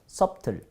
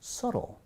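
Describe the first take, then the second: First: A b sound is heard after the first vowel. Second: No b sound is heard after the first vowel. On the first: The speaker calls it wrong. "밑에니까 sub, 그 다음에 틀 해서 subtle" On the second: The speaker calls it right. "no no no"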